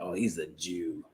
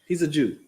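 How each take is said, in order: First: It is said in a scornful, insulting tone. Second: It is said in a plain, neutral tone.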